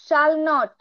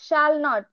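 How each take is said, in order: Both takes have the same delivery.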